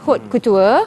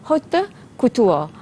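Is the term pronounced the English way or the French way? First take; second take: English; French. First: The term is pronounced the English way. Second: The term is pronounced the French way. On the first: "saya ajar dalam bahasa Inggeris lah sebutannya" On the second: "istilah dalam sebutan dalam bahasa Perancis lah"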